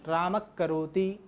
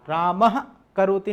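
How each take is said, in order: First: A half visarga, back-of-tongue friction, precedes 'karoti'. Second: A full visarga breath comes before 'karoti'. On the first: The speaker calls it right. "आधा विसर्ग उसको बोलते हैं" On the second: The speaker calls it wrong. "राम करोति नहीं"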